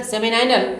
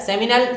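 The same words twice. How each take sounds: First: सेमिनाइनल with an "eye" sound in "-नाइ-"; long "-nai-" pronunciation. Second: सेमिनल with a short, unstressed last syllable; short-ending pronunciation. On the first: Teacher showing students the other accepted way, सेमिनाइनल with "-nai-". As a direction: say सेमिनाइनल as semi-NIGH-nal. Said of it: "कुछ लोग सेमिनाइनल भी कहलाते हैं". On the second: Teacher showing students one accepted way, सेमिनल with short "-nal". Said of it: "कुछ लोग इसे सेमिनल कहेंगे". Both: Shown as a demonstration.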